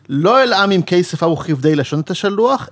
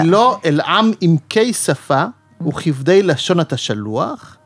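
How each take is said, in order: First: The verse is read at a normal pace. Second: The verse is read slowly and deliberately.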